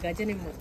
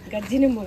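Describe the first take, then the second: First: The first word has a single j and ends in a. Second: The first word has a doubled j and ends in i. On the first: The speaker calls it right. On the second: The speaker calls it wrong.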